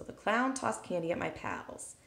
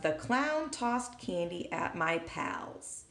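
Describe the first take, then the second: First: Said in the usual way. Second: Reading the sentence slowly and clearly. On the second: Shown as a demonstration. Teacher to students, slow clear reading. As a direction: read it out slowly. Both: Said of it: "So we have".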